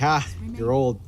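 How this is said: It is said in a light, teasing tone. Getting old is something to laugh about. "when you can laugh at it"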